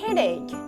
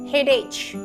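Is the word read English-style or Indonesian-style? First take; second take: English-style; Indonesian-style. First: The word is read the English way. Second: The word is read the Indonesian way. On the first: The speaker calls it right. "tetapi I got a headache" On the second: The speaker calls it wrong. "Jangan bilang lagi headache"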